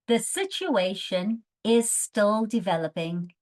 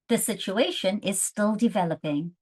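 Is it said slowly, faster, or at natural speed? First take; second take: slowly; natural. First: It is said really slowly. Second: It is said naturally, like a native.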